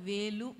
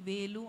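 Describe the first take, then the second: No difference in how they are said.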